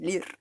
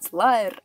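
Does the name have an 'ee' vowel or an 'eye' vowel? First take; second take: ee; eye. First: The name is said with an 'ee' vowel, 'leer'. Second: The name is said with an 'eye' vowel, 'layer'. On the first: The speaker calls it wrong. "а не «лир»" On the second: The speaker calls it right. "правильно читать «лайер»"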